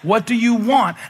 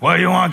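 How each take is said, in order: First: It sounds warm and inviting. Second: It sounds annoyed and dismissive.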